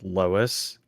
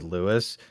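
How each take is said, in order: First: The name is said as 'Lois'. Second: The name is said as 'Lewis'. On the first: This is how they always call him. "we always pronounce it Lois" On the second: This is the man's real name. "his name is Lewis"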